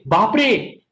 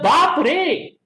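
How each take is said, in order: First: It sounds shocked and sad. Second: It sounds happy and amazed. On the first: Something bad has happened. "there is an accident over there and ten people have died" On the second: Something good has happened. "you have got uh, ninety percent work"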